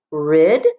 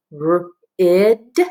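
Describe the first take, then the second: First: Rid as one joined syllable, firm and louder; blended syllable. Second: R-id split into a drawn-out R, then ID; sounded out. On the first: Teacher modelling the first syllable for pupils, Rid blended and emphatic. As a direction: say Rid whole, no break after the R. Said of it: "put those two parts together". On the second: Teacher helping pupils sound out a syllable, r-id in separate sounds. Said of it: "sound out this syllable". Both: Shown as a demonstration.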